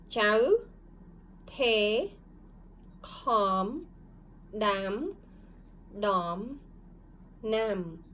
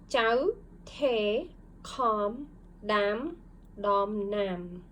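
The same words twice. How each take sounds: First: It is read slowly. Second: It is read faster.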